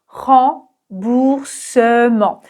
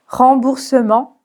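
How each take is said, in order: First: Remboursement extremely slowly, light second R; syllable by syllable. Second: Said in the usual way. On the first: Shown as a demonstration. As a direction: stretch each syllable of Remboursement. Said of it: "le deuxième R est vraiment un peu prononcé". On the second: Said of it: "je commence à prononcer le R".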